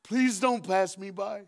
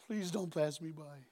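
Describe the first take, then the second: First: Slow begging plea; pleading. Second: Softer, slow whispered-style plea; preacher echoing the plea, soft and slow; quiet plea. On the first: Acted. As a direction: stretch it out, desperate. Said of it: "he screamed". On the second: Shown as a demonstration. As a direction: repeat it softly, tenderly. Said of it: "What a line".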